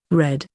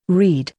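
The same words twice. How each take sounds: First: "read" pronounced like "red"; short-vowel read. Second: "read" pronounced like "reed"; long-vowel read. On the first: Reading out a word list, "read" said as "red". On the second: Reading out a word list, "read" said as "reed". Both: Shown as a demonstration.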